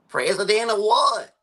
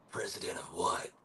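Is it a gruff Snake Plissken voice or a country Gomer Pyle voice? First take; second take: Gomer Pyle; Snake Plissken. First: It is said in a country Gomer Pyle impression. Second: It is said in a Snake Plissken impression.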